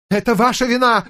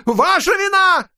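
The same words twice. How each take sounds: First: Ударение на «ваша», зло и высоко; бросай обвинение с нажимом на «ваша»; гневное обвинение. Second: «Ваша вина» выкрикнуто ещё выше и громче; сорвись на крик; яростный крик. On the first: (гневно, с нажимом) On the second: (крик ярости) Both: A narrator's reading. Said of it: "сорвался на крик".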